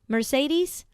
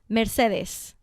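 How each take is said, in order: First: The name is said with an English pronunciation. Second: The name is said with a Spanish pronunciation. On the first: "should I pronounce it in English" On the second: "or in Spanish?"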